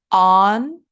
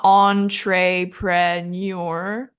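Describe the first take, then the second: First: Entrepreneur in spaced beats: ON, truh, pruh, NUR; all schwa. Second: Entrepreneur slowly as ON-TRAY-PRAY-NYUR; wrong vowels. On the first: Teacher drilling the right schwa sound, separated entrepreneur. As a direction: pause between syllables of entrepreneur, middle vowels as uh. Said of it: "It's all schwa". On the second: Teacher showing what to avoid, slow entrepreneur with tray and pray. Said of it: "So not entrepreneur". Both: Shown as a demonstration.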